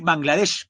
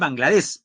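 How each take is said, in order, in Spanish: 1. El nombre termina en un sonido sh. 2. El nombre termina en un sonido s normal. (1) "también se puede decir Bangladesh con H, con H al final" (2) "Ahí dice Bangladesh"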